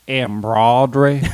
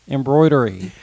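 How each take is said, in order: First: The word is said with a Georgian accent. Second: The word is said with a standard accent. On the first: The speaker calls it wrong. "whenever somebody pronounces it as embroidery" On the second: The speaker calls it right. "Like it's not that hard to say"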